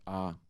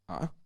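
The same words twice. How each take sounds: First: The vowel is held on a level mid pitch. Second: The vowel rises with a catch in the throat. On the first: "no marking at all means mid-tone" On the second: "glottalized rising"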